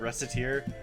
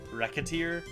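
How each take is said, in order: First: The middle consonant is an s sound. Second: The middle consonant is a k sound. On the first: "I've been pronouncing this game Reciteer" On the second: "supposed to be pronounced more like Racketeer"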